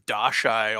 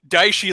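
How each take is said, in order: First: The name is said as Da-shai. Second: The name is said as Dai-shi. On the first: The speaker calls it wrong. "he kept calling it the Dashai" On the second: The speaker calls it right. "Daishi literally means great death"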